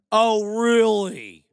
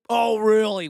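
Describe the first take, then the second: First: Slow, stretched mock surprise; drawn-out sarcasm. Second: Said in the usual way. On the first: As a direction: drag out the oh, sarcastic. Sarcastic reply to Jim Brown.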